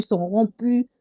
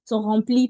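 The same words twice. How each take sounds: First: «remplies» prononcé «rampies», sans le l, à la congolaise; accent congolais. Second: «remplies» bien articulé avec le l, «ranplies»; prononciation corrigée. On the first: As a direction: laisse glisser le l de «remplies» comme avec l'accent congolais. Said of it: "c'est mon accent congolais". («remplies» dit «rampies», accent congolais) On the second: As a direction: reprends «remplies» proprement en marquant le l. («remplies» corrigé, avec un l net) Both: Real, not acted.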